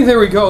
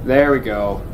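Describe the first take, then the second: First: Bright cheering call, pitched up. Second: Said in the usual way. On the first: Shown as a demonstration. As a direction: cheer him on like a fan. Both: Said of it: "like as if I'm cheering him on".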